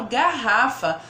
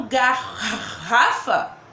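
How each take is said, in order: First: Said in the usual way. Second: "garrafa" drawn out slowly, as if each of the two R's were said separately; wrong pronunciation demo. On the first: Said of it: "Não, eu falo garrafa". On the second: Shown as a demonstration. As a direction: stretch out "garrafa" to show the wrong way, with a light laugh. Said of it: "Não". ("garrafa" dito devagar, exagerado, como se pronunciasse os dois erres)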